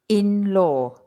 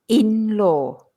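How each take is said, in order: The two takes are said the same way.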